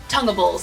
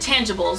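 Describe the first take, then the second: First: The first vowel sounds like in 'ton'. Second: The first vowel sounds like in 'tan'.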